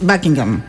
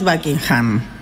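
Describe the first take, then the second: First: The ending of the name is reduced. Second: The ending of the name is pronounced in full. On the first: The speaker calls it right. "Es Buckingham. No se pronuncia la" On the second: The speaker calls it wrong. "No es Buckingham"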